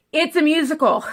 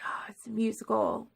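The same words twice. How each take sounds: First: Imitating her friend. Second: Hushed whisper of sudden understanding; awed whisper, realizing it at last; whispered realization. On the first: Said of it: "she goes". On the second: Retold or imitated. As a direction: breathe it out as a discovery. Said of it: "and I'm like".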